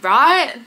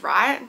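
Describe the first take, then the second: First: Higher, louder right?, half-laughing; mock-indignant right?; emphatic right. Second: Said in the usual way. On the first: Real, not acted. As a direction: push the question at the viewers. Louder repeat, mock checking.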